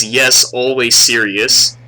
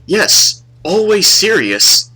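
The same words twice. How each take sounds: First: Slow, deliberate mock Asian accent; imitated Asian accent. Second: Higher, slow, solemn mock Asian accent; imitated Asian accent. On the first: Retelling the student's answer, slow Asian accent. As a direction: repeat it drawn out, Asian accent. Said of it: "He says". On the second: Student answering the girl, imitated Asian accent. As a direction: intone it slowly in an Asian accent. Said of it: "he has, like, an accent".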